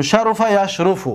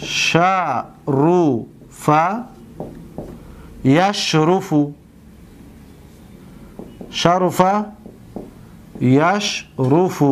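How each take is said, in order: First: Said in the usual way. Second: Drawn-out syllables with long pauses; unhurried word-by-word dictation; slow dictation. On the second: Shown as a demonstration. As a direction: say it piece by piece as you write. Dictating example while writing it.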